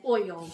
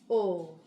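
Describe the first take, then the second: First: It is said in a standard accent. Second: It is said in a rural Southern accent. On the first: This is how country people do not say it. "We don't say oil" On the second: This is how country people say it. "I'm country. We say oil"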